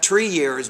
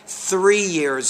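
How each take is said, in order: First: The first word begins with a plain t sound. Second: The first word begins with a th sound. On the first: The speaker calls it wrong. "not tree years" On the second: The speaker calls it right. "you have to put your tongue between your teeth"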